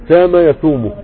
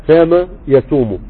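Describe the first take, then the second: The two takes are said the same way.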